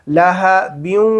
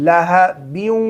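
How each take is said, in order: The two takes are said the same way.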